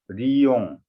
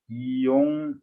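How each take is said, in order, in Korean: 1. 이 단어는 L 소리로 시작합니다. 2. 이 단어는 모음 소리로 시작합니다. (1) "하나하나 따로 읽을 때는 리용 리제라고 했는데" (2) "붙여서 읽을 때는 그냥 편하게 이용"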